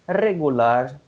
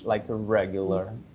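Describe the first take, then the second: First: The R at the start is rolled. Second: The R at the start is English-style. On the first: "the R is always like uh, rolled" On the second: "It's better to use the R in English, like regular"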